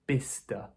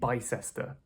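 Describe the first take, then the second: First: The middle 'cess' syllable is dropped. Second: The middle 'cess' syllable is fully pronounced. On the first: It is how the place name is actually said. The speaker calls it right. "the cess part is kind of deleted" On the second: It is read straight from the spelling. The speaker calls it wrong. "That's what I think when I read it"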